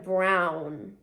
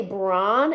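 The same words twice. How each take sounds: First: "brown" with a full ow glide; standard pronunciation. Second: "brawn" with an open aw vowel, no w glide; own "brawn" pronunciation. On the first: Showing the supposed way, full-glide "brown". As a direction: draw out "brown" to close on a w. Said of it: "it's supposed to be pronounced". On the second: Showing how they say brown, open-vowel "brawn". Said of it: "I say brawn instead of brown". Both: Shown as a demonstration.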